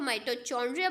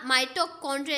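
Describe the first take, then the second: First: The middle consonant sounds like 'ch' in chair. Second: The middle consonant sounds like 'k' in kite. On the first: The speaker calls it wrong. "यानी ये गलत pronunciation है" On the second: The speaker calls it right. "तो इस तरीके से इसको हम प्रोनाउंस करेंगे"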